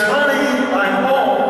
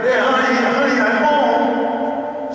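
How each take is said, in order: First: High, bright sing-song call to the house; carefree husband announcing he's home; cheerful homecoming call. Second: Higher, drawn-out second call, slowed down; husband calls a second time, slower and more insistent; calling again. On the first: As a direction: call out happily from the front door. Husband cheerfully calls out arriving home. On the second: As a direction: stretch it out, coaxing an answer from the silent kitchen. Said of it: "So he says it again". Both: Pretend.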